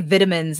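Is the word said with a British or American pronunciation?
British. The word is said with a British pronunciation. "She's British. They say vitamins"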